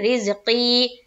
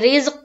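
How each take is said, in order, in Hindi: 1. शब्द का अंत लंबी 'ee' स्वर से होता है। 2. शब्द व्यंजन पर खत्म होता है, स्वर के बिना। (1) "या मद्दा करते ही हुए आयत करेंगे। जैसे रिज़्क़ी" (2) "अब कोई रिज़्क़ कर दे तो यह गलत है"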